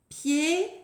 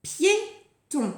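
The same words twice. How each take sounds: First: "Piéton" with pié long and rising, long pause, ton; Piéton stretched into two widely spaced syllables; syllable counting. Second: "Piéton" higher, in two short beats; Piéton crisply articulated, falling at the end; word announcement. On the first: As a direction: count out "Piéton" slowly together. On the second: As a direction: present "Piéton" clearly with a brief gap. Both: Shown as a demonstration. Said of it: "On compte les syllabes ensemble".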